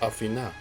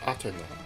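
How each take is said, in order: First: It is said with a Greek-style pronunciation. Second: It is said with a Japanese-style pronunciation. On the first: It refers to the mythological goddess. "In Greek, the name is closer to Athena" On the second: It refers to the series' version of the goddess. "my pronunciation of her name as the Japanese Athena"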